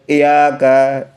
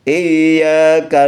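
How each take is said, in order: First: The y is short and single. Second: The y is held long and doubled. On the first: The speaker calls it wrong. "Tidak boleh iyyaka" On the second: The speaker calls it right. "Jadi tasydidnya di atas huruf ya"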